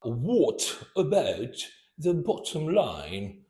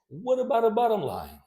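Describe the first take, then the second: First: The T sounds are pronounced as hard stops. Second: The T sounds are flapped, like a quick D. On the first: The speaker calls it wrong. "it's not" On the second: The speaker calls it right. "No, it's"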